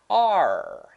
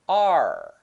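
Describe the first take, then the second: First: One smooth blended sound is said. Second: The same.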